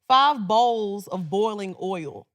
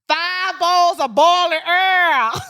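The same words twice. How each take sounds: First: It is said in the speaker's plain accent. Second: It is said in a Southern accent.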